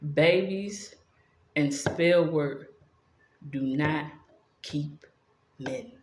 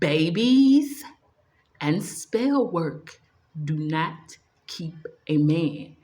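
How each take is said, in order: First: It is said at a normal volume. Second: It is said at a louder volume.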